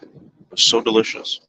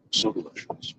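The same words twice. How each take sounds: First: Said in the usual way. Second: Whispered. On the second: Real, not acted.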